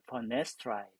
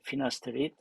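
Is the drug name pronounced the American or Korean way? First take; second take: American; Korean. First: It is said with American English sounds. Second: It is said with Korean loanword syllables. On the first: "fornestride 이렇게 얘기해서" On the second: "우리나라 이름도 있네, 그죠? 피나스테리드라고 그래"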